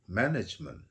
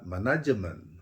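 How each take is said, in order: First: It is said with English sounds. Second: It is said with Indonesian sounds. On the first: The speaker calls it right. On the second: The speaker calls it wrong.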